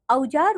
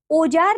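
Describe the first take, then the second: First: Said in the usual way. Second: "औजार" opened with a pure o, "ojaar"; wrong pronunciation. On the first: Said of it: "औजार होता है". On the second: Shown as a demonstration. Teacher showing pupils the error, "औजार" mispronounced as "ojaar". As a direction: flatten the au of "औजार" to o. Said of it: "नहीं".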